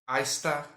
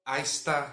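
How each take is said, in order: No difference in how they are said.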